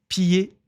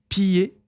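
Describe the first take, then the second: Both takes have the same delivery.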